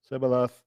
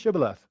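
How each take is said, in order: First: The word begins with an 's' sound. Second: The word begins with an 'sh' sound. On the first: The speaker calls it wrong. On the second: The speaker calls it right.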